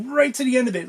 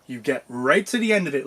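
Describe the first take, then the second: First: "right" pitched way up, then falling; emphatic RIGHT. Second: Said in the usual way. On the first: Real, not acted. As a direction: repeat it quicker, punching "right" high. Repeats it to drive point home.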